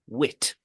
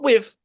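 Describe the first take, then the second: First: The word ends with a 't' sound. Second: The word ends with a 'th' sound. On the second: "Not with"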